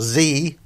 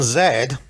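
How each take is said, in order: First: The letter is said the American way, 'zee'. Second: The letter is said the British way, 'zed'.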